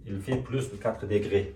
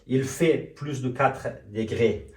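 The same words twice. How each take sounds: First: Slow, careful French model; slow model sentence. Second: Very slow, stretched French words; very slow model sentence. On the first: Teacher modelling the French sentence slowly for students. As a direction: lay out every word for the class. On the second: Teacher reviewing the sentence very slowly for students. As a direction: drag it out word by word. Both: Shown as a demonstration.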